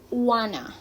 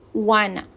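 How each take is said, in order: First: The phrase is reduced to 'wanna'. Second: The phrase is reduced to 'wanna'.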